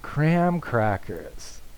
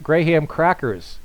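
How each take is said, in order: First: Graham sounds like one short syllable, gram. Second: Graham sounds like two words, gray and ham. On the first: This is how the speaker says it at home. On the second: This is how it is said in the Philippines.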